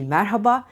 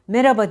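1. Ortadaki h sesi açıkça telaffuz edilir. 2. Ortadaki h sesi düşer. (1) "Sadece merhaba" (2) "merhaba değil"

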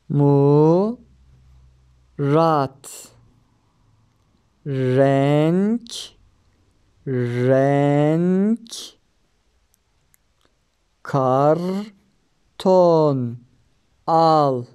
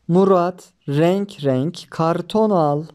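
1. Yavaş okunuyor, heceler arasında duraklanarak. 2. Tek, akıcı bir cümle olarak hızlıca okunuyor. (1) "hece hece okuyalım önce" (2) "Daha sonra hızlı bir şekilde okuyalım"

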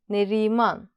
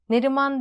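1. i ünlüsü uzun söyleniyor. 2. i ünlüsü kısa söyleniyor. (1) "Şuradaki i'yi uzatmayı unutmayalım" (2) "Neriman değil"

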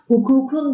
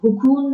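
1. Ekten önceki ünsüz k. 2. Ekten önceki ünsüz yumuşak g.

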